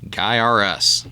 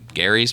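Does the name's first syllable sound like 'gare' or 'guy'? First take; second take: guy; gare. First: The name starts like 'guy' with three syllables. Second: The name starts like 'gare' with two syllables. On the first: The speaker calls it right. "say it with me, Guy R Us" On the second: The speaker calls it wrong. "So it's not Gary's"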